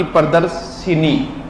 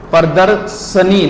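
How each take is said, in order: First: Slow "shi-nee" in प्रदर्शिनी; प्रदर्शिनी slowly, with i after sh; wrong i vowel. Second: Slow "sha-nee" in प्रदर्शनी; प्रदर्शनी slowly, no i after sh; correct short a. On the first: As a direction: split प्रदर्शिनी as pra-dars... shi-nee. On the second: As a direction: split प्रदर्शनी as pra-dar... sha-nee. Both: Shown as a demonstration. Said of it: "ना कि प्रदर्शिनी".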